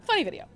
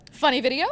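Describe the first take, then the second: First: "Funny video." said with a falling tune, settling it; deciding tune. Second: "Funny video?" asked with a rising tune, offering it to the room; asking tune. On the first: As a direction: land "Funny video." as a decision. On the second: Panelist offering the audience a video, rising question. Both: Shown as a demonstration.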